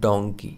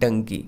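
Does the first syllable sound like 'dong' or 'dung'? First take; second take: dong; dung. First: The first syllable sounds like 'dong'. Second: The first syllable sounds like 'dung'. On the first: The speaker calls it right. "Correct pronunciation होगा डोंकी ... D A W N G डोंग" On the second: The speaker calls it wrong. "इसको लोग बोलते हैं डंकी, but डंकी बिल्कुल गलत है"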